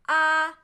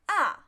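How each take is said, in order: First: The pitch stays level and does not change. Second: The pitch falls sharply from high to low. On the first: "First tone, flat" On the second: "Just directly fall"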